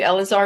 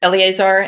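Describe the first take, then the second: First: Elazar said in three syllables, el-uh-ZAR; mispronounced name. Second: Eleazar said as el-ee-AY-zar; corrected name pronunciation. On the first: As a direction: say Elazar without the "ee-AY" in the middle. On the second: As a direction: give Eleazar four syllables, with "ee-AY" in the middle. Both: Real, not acted.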